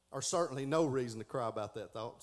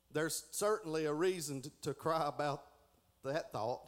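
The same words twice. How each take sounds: First: "no" stressed as the corrected word; correcting a misread. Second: Said in the usual way. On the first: Real, not acted. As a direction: lean on "no" to fix the misreading. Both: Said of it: "Sorry, misread that".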